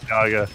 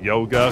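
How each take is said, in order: First: The first syllable sounds like 'ya'. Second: The first syllable sounds like 'yo'. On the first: The speaker calls it right. "Chad has informed me it's Yaga" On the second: The speaker calls it wrong. "I keep pronouncing it yoga because I'm just used to saying that"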